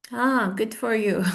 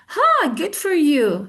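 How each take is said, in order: First: Unenthusiastic. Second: Higher, drawn-out enthusiastic congratulation. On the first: Teacher shows how not to congratulate, unenthusiastic. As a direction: drag it out without enthusiasm. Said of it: "Not like". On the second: Teacher models congratulations for students, enthusiastic. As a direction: stretch it with enthusiasm, pitched up. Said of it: "with an enthusiastic voice". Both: Shown as a demonstration.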